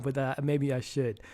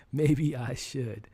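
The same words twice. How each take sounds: First: Said in the usual way. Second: "Maybe I should" drawn out slowly; slow, thoughtful "Maybe I should"; slow musing. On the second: Real, not acted. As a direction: repeat "Maybe I should" slowly, mulling it over.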